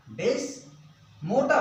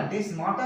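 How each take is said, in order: First: "डेस्मोटा" with an O vowel, des-MO-ta; the mistaken des-mo-ta reading of "डेस्मोटा"; wrong pronunciation. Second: "डेस्माटा" with a long A, des-MAA-ta; the recommended des-maa-ta reading of "डेस्माटा"; corrected pronunciation. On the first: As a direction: say "डेस्मोटा" with mo in the middle. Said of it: "डेस्मोटा मत करना". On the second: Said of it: "डेस्माटा कह दीजिए". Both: Shown as a demonstration.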